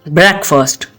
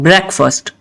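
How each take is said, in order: Both takes have the same delivery.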